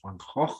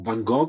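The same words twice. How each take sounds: First: The name is said in a Dutch accent. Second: The name is said in an Italian accent. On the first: The speaker calls it right. "I believe it was Van Gogh or something like that" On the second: The speaker calls it wrong. "as we say in Italian"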